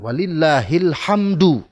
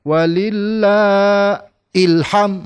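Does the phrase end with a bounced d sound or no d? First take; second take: bounced d; no d. First: The final d is clearly released with a bounce. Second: The final d is dropped, ending on m. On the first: The speaker calls it right. "D harus ada ujungnya D itu karena qalqalah kubra" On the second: The speaker calls it wrong. "Jadi tidak boleh walillah ilham"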